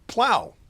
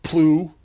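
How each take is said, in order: First: The word rhymes with cow. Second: The word rhymes with through. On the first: The speaker calls it right. "but plow" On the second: The speaker calls it wrong. "not plew"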